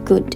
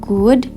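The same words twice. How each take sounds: First: The vowel is kept short. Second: The vowel is drawn out long. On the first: The speaker calls it right. "tapi good" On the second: The speaker calls it wrong. "Jadi bukan good"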